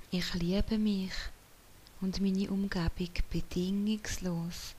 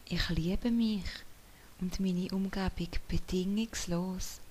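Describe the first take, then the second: No difference in how they are said.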